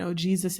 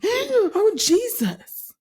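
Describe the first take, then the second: First: Said in the usual way. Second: "Oh, Jesus." with a gasp first, then a big high cry on "Oh"; hammed-up startled passenger, loud and high; exaggerated panicked exclamation. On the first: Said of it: "It was his whole". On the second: Wife mocking husband's over-the-top fright in the car. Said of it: "He didn't do it like that, but he was extra".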